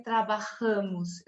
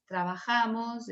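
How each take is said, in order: First: TRABAJAMOS with a closed, nasal stressed A; slow "trabajamos", A before the M nasalised. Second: TRABAJAMOS with a wide-open stressed A; slow "trabajamos" the Spanish way, no nasal A. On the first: Teacher showing what she never says, nasal A in "trabajamos". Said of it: "eu nunca vou dizer". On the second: Teacher modelling what she always says, open A in "trabajamos". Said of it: "o A sempre será aberto". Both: Shown as a demonstration.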